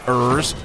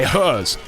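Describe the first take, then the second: First: It begins with no H sound. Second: It begins with an audible H sound. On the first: "We don't say ers" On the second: "We say hers"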